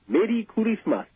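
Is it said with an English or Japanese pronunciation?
Japanese. It is said with a Japanese pronunciation.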